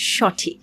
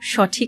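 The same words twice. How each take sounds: First: The first vowel sounds like open 'aw'. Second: The first vowel sounds like closed 'oh'. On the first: The speaker calls it right. "এই স অবিকৃত থাকছে" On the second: The speaker calls it wrong. "নিয়ম অনুযায়ী যদিও সঠিক হওয়ার কথা"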